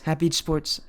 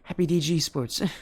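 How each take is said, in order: First: The letters D and G are not spelled out. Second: The letters D and G are spelled out. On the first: The speaker calls it right. "but it's Happy Sports" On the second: The speaker calls it wrong. "I know I said it earlier in the stream"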